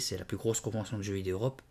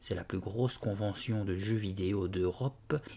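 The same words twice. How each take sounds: First: The sentence is spoken at a faster pace. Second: The sentence is spoken at a slower pace.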